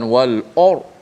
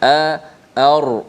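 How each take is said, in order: First: The opening vowel is heavy and rounded. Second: The opening vowel is light and thin. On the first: The speaker calls it wrong. "bukan wal or" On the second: The speaker calls it right. "hamzah tu biasa"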